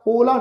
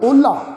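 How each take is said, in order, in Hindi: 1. L सादा है, इसमें कोई हकार वाली साँस नहीं। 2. L साँस वाला है, इसमें h जैसी आवाज़ है। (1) "इनू ओला ओला नहीं उचारण करना" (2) "लल्ले दे पैर च अद्धा हाहा लगा के ओला"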